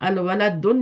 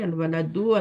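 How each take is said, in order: First: The word ends with an added n sound. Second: The word ends on a vowel, without n. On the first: The speaker calls it wrong. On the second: The speaker calls it right.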